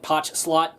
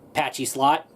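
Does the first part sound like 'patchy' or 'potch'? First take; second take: potch; patchy. First: The first part sounds like 'potch', one syllable. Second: The first part sounds like 'patchy', two syllables. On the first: This is how the speaker says it. "I ended up pronouncing it Potch Slot" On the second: This is how some viewers may say it. "Some of you guys may pronounce that word Patchy Slot"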